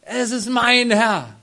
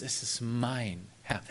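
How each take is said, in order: First: "Es ist mein Herr" cried out loud and high, slowly, stress on "mein"; proud exclamation. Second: "Es ist mein Herr" said low and soft, slowly, leaning on "mein" with a rise; quiet proud claim. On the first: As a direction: proclaim "mein Herr" with swelling pride. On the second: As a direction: savour "mein" like a treasured possession. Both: Retold or imitated. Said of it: "voller Stolz".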